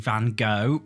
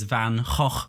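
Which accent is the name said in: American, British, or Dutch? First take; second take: American; Dutch. First: The name is said the American way. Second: The name is said the Dutch way. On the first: "American people say Van Gogh" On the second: "Dutch people pronounce it as Van Gogh"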